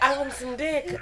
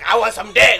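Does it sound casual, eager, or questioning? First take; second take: casual; eager. First: It is said casually, as a plain statement. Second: It is said eagerly, as an exclamation.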